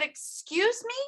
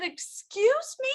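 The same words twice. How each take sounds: First: Higher, softer incredulous question; quieter, still in disbelief; disbelieving. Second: Much higher, slow disbelieving question; can't believe what she heard; stunned. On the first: Repeated stunned reply. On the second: Stunned reply to doctor. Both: Retold or imitated.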